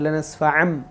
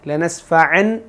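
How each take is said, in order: First: The word ends with an m sound. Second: The word ends with a clear n sound. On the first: The speaker calls it right. "ലനസ്ഫഅം ഇങ്ങനെ ഓതുക" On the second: The speaker calls it wrong. "ലനസ്ഫഅൻ എന്നത് കേൾക്കാതെ"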